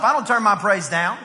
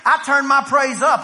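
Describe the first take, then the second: First: Firm, lower-key declaration; praise turned down. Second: Louder, emphatic declaration; loud, punchy pulpit assertion; turned-up praise. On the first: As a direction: pitch dropping below the rallying cry. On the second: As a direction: raise the volume and proclaim it. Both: Shown as a demonstration.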